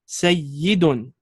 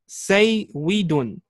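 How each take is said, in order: First: The middle consonant is a doubled y sound. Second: The middle consonant is a w sound. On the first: This is the final merged form. "and now we perform the idgham with the shadda" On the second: This is the original underlying form. "Here we have the word saywidun"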